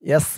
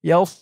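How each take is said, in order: First: The s sound is light and thin. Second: The s sound is heavy and full-mouthed. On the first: The speaker calls it wrong. "এই সদের জায়গায় সিনের উচ্চারণ হয়ে যাবে" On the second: The speaker calls it right. "মুখটা একটু গুল ভরপুর হয়ে যাবে"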